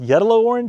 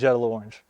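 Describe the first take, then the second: First: The name begins with a Y sound. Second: The name begins with a J sound. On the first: This is the correct pronunciation. The speaker calls it right. "Correctly, I think it's pronounced" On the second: This is how they usually say it. The speaker calls it wrong. "But we always call it"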